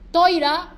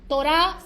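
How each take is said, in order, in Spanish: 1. Las vocales suenan como 'Toy-ra', al estilo ashkenazí. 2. Las vocales suenan como 'To-rah', al estilo sefardí. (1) "también se puede decir Toira, askenazí" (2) "Torah, sefaradí"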